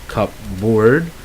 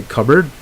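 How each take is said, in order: First: Cupboard with the P said, cup-board; wrong spelled-out cupboard. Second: Cupboard said as kubberd, P silent; correct cupboard. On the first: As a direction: sound the P in cupboard. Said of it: "You don't say cupboard". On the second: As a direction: drop the P in cupboard. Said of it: "it's actually cupboard". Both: Shown as a demonstration.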